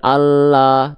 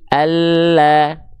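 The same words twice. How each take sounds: First: The vowel is full and wide open. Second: The vowel is thin and light. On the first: The speaker calls it wrong. "Tipiskan bukan Allah" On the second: The speaker calls it right. "tapi Allah"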